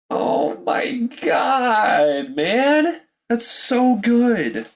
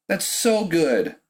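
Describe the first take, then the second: First: Half-crying rave; overwhelmed outcry. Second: Said in the usual way. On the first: Real, not acted. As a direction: cry out in awe at the deal. Overwhelmed by the Eagles trade.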